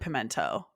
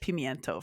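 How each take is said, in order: First: The middle syllable is a plain 'men'. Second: The middle syllable is 'myen' with a glide. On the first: This is how people commonly say it. "People pronounce it pimento" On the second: This is the original Spanish form. "in Spanish pimiento for sure"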